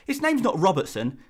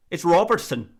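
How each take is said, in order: First: Said in the usual way. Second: Mock Scottish accent on ROBERTSON. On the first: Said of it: "saying the name Robertson in your native accent". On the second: YouTuber imitating a Scottish person correcting the name, Scottish accent. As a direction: correct them as a Scot, rolling out "Robertson". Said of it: "and a Scottish person said".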